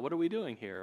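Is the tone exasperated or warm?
warm. The tone is warm and pleasant. The speaker is happy with what they find. "to children who are playing nicely in a room together when you walk in"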